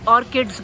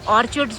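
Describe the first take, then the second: First: The middle consonant is a 'k' sound. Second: The middle consonant is a 'ch' sound. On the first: "मेरे को लगता है कि ऑर्किड बोलते हैं" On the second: "कुछ लोग ऑर्चिड्स भी बोलते हैं"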